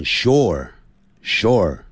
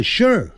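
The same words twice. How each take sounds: First: "sure" drawn out long; slow, lengthened "sure"; said slowly. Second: "sure" in one quick falling syllable; quick, merged "sure"; said fast like a native. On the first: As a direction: stretch "sure" slowly toward two syllables. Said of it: "念慢". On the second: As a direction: say "sure" short, as foreigners do. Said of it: "还有老外念快". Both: Shown as a demonstration.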